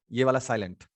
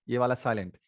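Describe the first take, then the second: No difference in how they are said.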